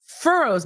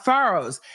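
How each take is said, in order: First: Said in the usual way. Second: Put-on FURROWS said "FAH-rows" in a Massachusetts accent. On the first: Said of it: "he said it again". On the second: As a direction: imitate a Massachusetts witness saying FURROWS as "FAR-oze". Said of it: "with his Massachusetts accent".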